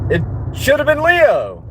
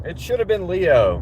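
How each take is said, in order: First: "Leo" thrown up high in disbelief; emphatic outburst. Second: Said in the usual way. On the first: Real, not acted. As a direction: blurt it out high and protesting, landing hard on "Leo". Indignant at mascot name.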